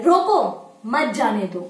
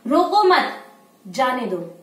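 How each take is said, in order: First: रोको alone, pause, then मत जाने दो together; slow reading, break right after रोको. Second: रोको मत together, pause, then जाने दो lower; pause after मत. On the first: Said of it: "इसी कॉमे को हम हटाकर यहाँ पर लगा देते हैं". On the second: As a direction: break after मत, dropping on जाने दो. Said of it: "अगर हम कॉमा यहाँ लगा देते हैं". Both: Shown as a demonstration.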